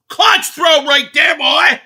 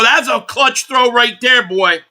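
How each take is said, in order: First: High, loud hype yell; excited shout. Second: Said in the usual way. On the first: Real, not acted. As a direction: holler it out in triumph. Third, shouted repeat.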